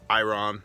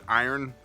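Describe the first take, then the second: First: It sounds like eye-ron, the r before the vowel. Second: It sounds like eye-urn, the r after the vowel. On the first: This follows the written spelling. "but it's spelled iron" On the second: This is how people commonly say it. "Some people pronounce it iron"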